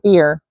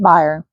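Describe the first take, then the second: First: The word rhymes with 'hear'. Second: The word does not rhyme with 'hear'. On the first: The speaker calls it right. "It's supposed to be beer" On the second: The speaker calls it wrong. "I always heard it bier"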